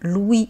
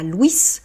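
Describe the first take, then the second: First: The final consonant is silent. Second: The final consonant is pronounced. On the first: It names a boy. The speaker calls it right. "On dit bien Louis" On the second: It could be confused with a girl's name. The speaker calls it wrong. "et non pas Louis"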